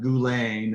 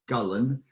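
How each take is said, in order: First: The name is said without a Scottish accent. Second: The name is said with a Scottish accent. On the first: The speaker calls it wrong. "It's not Gulane" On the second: The speaker calls it right. "with a proper Scottish accent"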